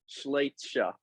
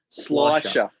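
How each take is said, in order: First: The name does not begin with a plain 'sl' sound. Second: The name begins with a plain 'sl' sound. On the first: The speaker calls it wrong. "I'm going to say it wrong again" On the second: The speaker calls it right. "it's Slicer"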